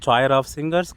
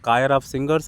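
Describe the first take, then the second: First: The first word starts with a ch sound. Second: The first word starts with a k sound. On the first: "அப்படிலாம் நான் படிச்சுட்டு இருந்தேன்" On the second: "அப்படிலாம் நான் படிச்சுட்டு இருந்தேன்"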